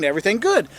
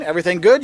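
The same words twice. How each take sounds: First: "Everything good." with a falling statement tune; answering back. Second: "Everything good?" with a rising question tune; greeting question. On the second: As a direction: ask "Everything good?" lightly, tune going up. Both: Shown as a demonstration. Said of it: "You answer back".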